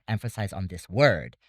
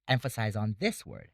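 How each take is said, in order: First: Word hit louder at the end; emphasize the final word; stress on word. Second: This picked out and hit; stress on this. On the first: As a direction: save the punch for word. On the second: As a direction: stress this in the middle. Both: Shown as a demonstration.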